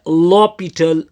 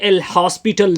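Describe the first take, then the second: First: It is said as 'lopital', without an s. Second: It is said as 'el hospital', with an s. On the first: The speaker calls it right. "बल्कि इसको पढ़ा जाता है लॉपिटल" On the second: The speaker calls it wrong. "ये एल हॉस्पिटल नहीं पढ़ा जाता"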